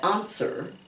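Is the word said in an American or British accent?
British. The first vowel is British, an open 'ah'. "We don't say answer, okay? That would be more like British English"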